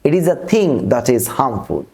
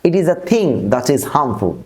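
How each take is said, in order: The two takes are said the same way.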